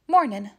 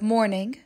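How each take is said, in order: First: The final g sound is dropped. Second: The final g sound is kept.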